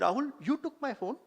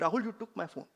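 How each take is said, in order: First: It is said as a question. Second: It is said as an accusation. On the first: The speaker asks whether it happened. "it's a question" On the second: The speaker blames the listener. "Or I can do acquisition"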